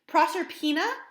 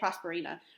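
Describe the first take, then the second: First: The name is said with the order Pro-ser-pina. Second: The name is said with the order Pros-per-ina. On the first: The speaker calls it right. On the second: The speaker calls it wrong.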